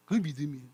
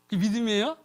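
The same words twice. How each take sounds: First: 그게 믿음이에요 with a settled, falling tune; firm statement. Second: 그게 믿음이에요 with a rising, doubting tune; mocking question. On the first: Preacher affirms true faith, low and firm. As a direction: declare 그게 믿음이에요 as final. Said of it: "그게 진짜 믿음이라고요". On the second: Preacher asks the crowd, rising and doubting. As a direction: challenge whether 믿음이에요 is faith at all. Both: Shown as a demonstration.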